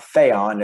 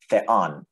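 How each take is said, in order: First: Theon with "the" stressed, louder and drawn out; wrong stress on first syllable. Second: Theon with the weight on "on"; light "the", then land on the "on" of "theon"; stress on second syllable. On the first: Teacher showing the wrong stress of theon, first syllable stressed. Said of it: "it's theon". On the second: Teacher correcting the stress of theon, second syllable stressed. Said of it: "it's not theon". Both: Shown as a demonstration.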